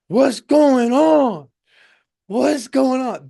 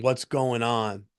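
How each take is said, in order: First: High, loud, drawn-out mock shout; afraid and angry. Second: Said in the usual way. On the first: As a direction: imitate a scared, angry passenger hollering. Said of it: "He's just clearly afraid. So when you're that afraid, anger comes in".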